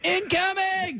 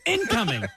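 First: The stress is on the second syllable. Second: The stress is on the first syllable. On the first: The speaker calls it right. "That's how you say" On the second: The speaker calls it wrong. "We put the emphasis on in"

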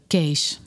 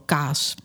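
First: It sounds like the English word 'case'. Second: It sounds like the Dutch word 'kaas'. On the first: "Ik zeg altijd Case" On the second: "In Nederland hoor ik ook wel kaas"

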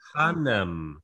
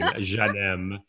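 First: The name is said with an Arabic-style G sound. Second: The name is said with a soft, French-sounding G. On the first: The speaker calls it right. "people who speak Arabic tell me, no, it's like Ghanem" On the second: The speaker calls it wrong. "very French sounding, Soft G's"

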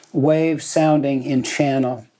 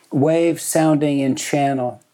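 The two takes are said the same way.

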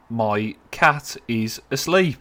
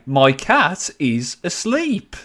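First: It is said in a flat, unenthusiastic tone. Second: It is said in a more excited tone.

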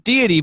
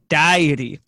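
First: The word begins with a 'dee' sound. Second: The word begins with a 'die' sound. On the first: The speaker calls it right. "It's deity" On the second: The speaker calls it wrong. "but she says diety. So she talks about going on a diet a lot"

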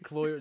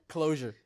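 First: The middle consonant is slurred and dropped. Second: The middle consonant is clearly enunciated. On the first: The speaker calls it wrong. "You said cloyer" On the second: The speaker calls it right. "did I enunciate"

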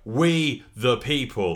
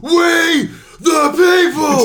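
First: It is said calmly, without shouting. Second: It is screamed loudly.

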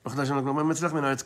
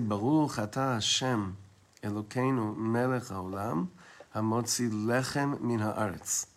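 First: It is rushed and mumbled together. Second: It is said slowly, each word clear.

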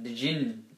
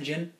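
First: Both the D and the J sounds are pronounced. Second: The D is dropped and it starts with J.

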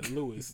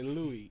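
First: It is said like an ordinary man's name. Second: It is said in the posh, refined way. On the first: The brand is named like a regular guy. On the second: The speaker sounds upscale and pretentious. "bougie people say Louis"

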